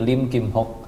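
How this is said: The name is read with Hokkien sounds. "kalau pakai logat Hokkien jadi Lim Kim Hok"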